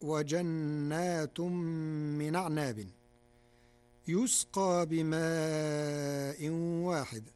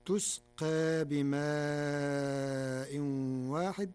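First: يسقى with ya, yusqa; standard reading. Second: تسقى with ta, tusqa; slow Warsh recitation of تسقى; Warsh reading. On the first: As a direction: recite يسقى starting with a ya. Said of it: "قرأ ورش كلمة يسقى". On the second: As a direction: start تسقى with a clear ta. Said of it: "بالتاء بدل الياء". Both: Shown as a demonstration.

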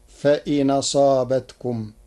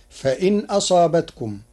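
First: فإن أصابتكم read fa-inaṣābatkum, vowel moved onto n; فإن أصابتكم without a glottal stop; Warsh reading, hamza dropped. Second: فإن أصابتكم read fa-in aṣābatkum with the glottal stop kept; فإن with sukun on n before the hamza; Hafs reading with hamza. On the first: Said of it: "بنقل حركة الهمز إلى الساكن قبله". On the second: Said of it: "قرأ ورش كلمتي فإن أصابتكم بنقل حركة الهمز". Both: Shown as a demonstration.

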